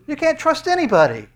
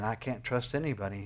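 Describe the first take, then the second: First: High, loud cry on can't; loud preaching cry. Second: Softer, hushed admission of despair; quiet despair. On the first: Acted. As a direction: shout the despair out to the hall. Preacher cries out despair. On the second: Retold or imitated. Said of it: "And you're saying".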